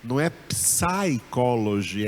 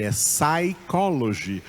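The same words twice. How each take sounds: First: Psychology with the P sounded, psai-ko-lo-jy; wrong pronunciation. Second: Psychology said sai-ko-lo-jy, P silent, slower. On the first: Teacher showing the wrong English pronunciation of psychology. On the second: Teacher giving the correct English pronunciation of psychology. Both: Shown as a demonstration.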